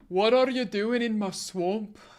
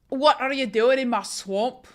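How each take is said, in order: First: The line is said in a deeper voice. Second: The line is said in a higher voice.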